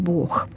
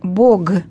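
First: The word ends in a voiceless kh sound. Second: The word ends in a voiced g sound. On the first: It is the standard literary Russian form. "а говорим «Бог»" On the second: It is the form used in Church Slavonic prayer. "в молитве мы говорим «Бог"

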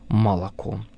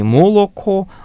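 First: The unstressed vowels sound like 'a'. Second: The unstressed vowels sound like a clear 'o'. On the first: "звук «о», когда он находится без ударения, начинает произноситься как «а»" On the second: "говорится уже не «молоко»"

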